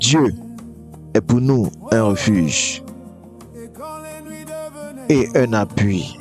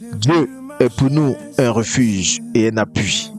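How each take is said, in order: First: It is read slowly and gently. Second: It is read at a normal, ordinary pace.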